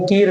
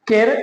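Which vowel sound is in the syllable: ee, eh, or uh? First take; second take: ee; eh. First: The vowel sounds like ee. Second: The vowel sounds like eh. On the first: "केर और कीर नहीं" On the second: "केर और कीर नहीं"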